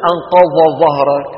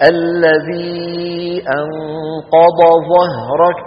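First: أنقض ظهرك said louder with the ض run into the ظ; wrong articulation. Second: الذي أنقض ظهرك chanted very slowly, the ض and the ظ in ظهرك clearly separate; correct articulation. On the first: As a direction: blur the ض into ظهرك as the mistake. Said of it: "ولا نقول". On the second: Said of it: "كيف توالى الضاد والظاء". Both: Shown as a demonstration.

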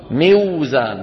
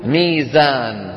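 First: "موزان" as miw-zaan, waw sounded after kasra; hard-to-say original form. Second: "ميزان" very slow, long smooth mee; easy natural form. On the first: Teacher tests difficulty for students, "موزان" as awkward miw-zaan. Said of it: "سهلة النطق أم صعبة النطق". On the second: Teacher shows what Arabs say, "ميزان" slow with long ee. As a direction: glide through "ميزان" as meee-zaan. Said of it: "شو بيقولوا؟". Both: Shown as a demonstration.

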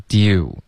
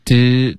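First: "do" sliding into rounded lips; gliding vowel. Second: "do" with rigid jaw and no lip glide; stiff vowel. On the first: Teacher modelling the corrected word, gliding vowel. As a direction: glide through "do" with moving lips. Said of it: "有嘴唇的动作". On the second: Teacher copying the student's sound, stiff vowel. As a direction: imitate a stiff, unrounded "do". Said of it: "要注意滑动". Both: Shown as a demonstration.

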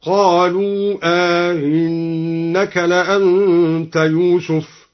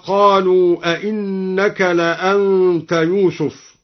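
First: Very slow chant, "أئنك" as aa-innaka, second stop eased; softened hamza. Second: Slow recitation, "أئنك" as a-innaka with two clear stops; both hamzas sounded. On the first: Reciter demonstrates al-Duri's reading, "أئنك" with inserted alif. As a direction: lengthen the first vowel of "أئنك", glide the second hamza. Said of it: "مع إدخال ألف بينها وبين الأولى". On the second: Reciter cites the verse, "أئنك" as a-innaka. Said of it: "قرأ الدوري بتسهيل الهمزة الثانية". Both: Shown as a demonstration.

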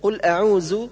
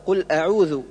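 First: أعوذ ending in a z sound; dhal as z. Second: أعوذ with voiced interdental dh; tongue between teeth for ذ in أعوذ; correct dhal. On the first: Teacher showing the error, أعوذ said with z. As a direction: buzz a ز in place of ذ in أعوذ. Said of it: "وكالنطق بالذال زايا". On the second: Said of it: "والصواب". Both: Shown as a demonstration.

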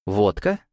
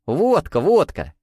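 First: «Водка» with a rising, puzzled end; questioning echo. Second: High, eager repeated exclamation; joyful confirmation. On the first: Waiter checks the order, «Водка» as a rising question. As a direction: ask «Водка» back to check, voice lifting. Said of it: "переспросил гарсон". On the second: Mikhail nods to the waiter, joyfully confirming. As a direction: confirm it gleefully, each word falling from high. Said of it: "радостно закивал". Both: A narrator's reading.

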